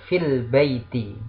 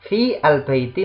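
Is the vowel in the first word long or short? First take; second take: short; long. First: The first vowel is short, joined to 'l'. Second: The first vowel is long, with 'al' separate. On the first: "tidak panjang" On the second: "Harusnya kan fi, nah, panjang"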